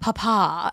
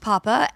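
First: It is said in a fancy, posh way. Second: It is said in a plain, ordinary way. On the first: The speaker calls it right. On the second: The speaker calls it wrong.

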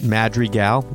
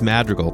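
First: The name is said with a Spanish-like accent. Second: The name is said in a plain English way. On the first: The speaker calls it wrong. "that's like a Spanish accent" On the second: The speaker calls it right. "it's Madrigal"

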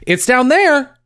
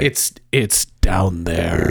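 First: It is said in a casual, light tone. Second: It is said in a hesitant, ominous tone.

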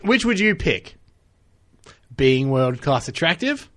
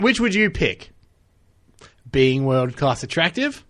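First: A pause separates the question from the options. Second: The same.

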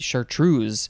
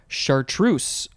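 First: The ending is said with a Z sound. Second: The ending is said with an S sound.

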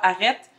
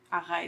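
First: The middle vowel is short, as in Quebec City. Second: The middle vowel is long, as in Montreal.

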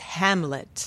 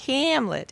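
First: The final t sound is crisp and clear. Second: The final t sound is weak or dropped. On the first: The speaker calls it right. "I do have to watch my consonant endings" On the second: The speaker calls it wrong. "it's not Hamlet"

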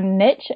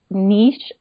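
First: It is said with an American accent. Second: It is said with a non-American accent.

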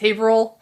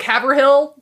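First: It is said in a shortened, local form. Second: It is said fully, as the spelling suggests. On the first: The speaker calls it right. "but it's Haverhill" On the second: The speaker calls it wrong. "Haverhill sounds like Haverhill"

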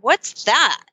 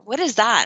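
First: The question sounds excited and curious. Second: The question sounds flat and uninterested. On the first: The name sparks real interest. The speaker calls it right. "in the most excited, curious way" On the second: The name causes confusion rather than interest. The speaker calls it wrong. "Not like"

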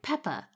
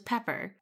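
First: The name ends without an r sound. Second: The name ends with a clear r sound. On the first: "that's a shoo-in for, like" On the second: "his name was Pepper"

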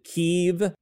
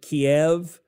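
First: The name is said the newer, current way. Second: The name is said the older, traditional way. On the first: This is now considered the more enlightened way. "more enlightened to pronounce it Kiev" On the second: This is how people used to say it. "everyone used to pronounce it Kiev"

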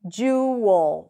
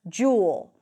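First: A schwa vowel comes before the L. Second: It is said simply, without the extra schwa. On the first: "with a schwa L"

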